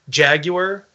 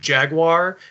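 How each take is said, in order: First: The word is said with a British pronunciation. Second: The word is said with an American pronunciation. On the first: "the British pronunciation of Jaguar" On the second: "instead of Jaguar"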